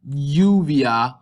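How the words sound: The word begins with a soft y-like sound. This is how it is said in some regions. "you'll get something like U, uvia"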